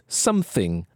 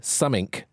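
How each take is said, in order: First: It is said with full standard pronunciation. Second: It is said with reduced slang pronunciation. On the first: "the dulcet tones of some received pronunciation" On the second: "and even summink"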